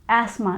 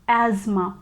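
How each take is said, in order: First: It is said with no z sound. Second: It is said with a z sound. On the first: "And in British English, we pronounce it as asthma. There is no Z sound here" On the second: "in American English, we pronounce this word as asthma. We get this z sound in the beginning"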